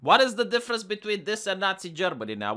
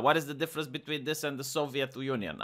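First: Said in the usual way. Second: Dropped, quieter and lower; muted rhetorical echo; softer repeat. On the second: Real, not acted. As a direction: let the echo fall away quietly.

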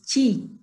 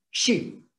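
First: Chi with a hard CH onset; CH contrast. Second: Shi with a hushing SH, drawn out; SH contrast. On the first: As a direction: model chi as CH, tongue further forward than for SH. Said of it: "El otro es chi". ("chi" con sonido de CH) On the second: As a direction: model shi with the tongue further back. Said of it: "La lengua tiene que estar más atrás". ("shi" con sonido de SH, lengua atrás) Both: Shown as a demonstration.

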